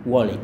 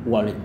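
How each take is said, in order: No difference in how they are said.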